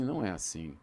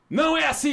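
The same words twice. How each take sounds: First: It is said mildly, without force. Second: It is said forcefully, like a punch.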